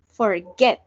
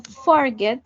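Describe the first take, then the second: First: Forget said slowly with stress on the last syllable, for-GET; slow, lean on GET; right stress on forget. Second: Forget said with stress on the first syllable, FOR-get; teacher shows the wrong way, FOR-get. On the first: Teacher models the right stress, for-GET, slowly. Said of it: "La acentuación está en el get". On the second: Teacher warns students off wrong stress, FOR-get. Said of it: "Yo no digo forget". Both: Shown as a demonstration.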